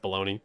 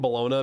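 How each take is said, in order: First: The word is pronounced like 'baloney'. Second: The word is pronounced just as it is spelled. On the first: "I know it's bologna" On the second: "that's how the fuck you would pronounce that"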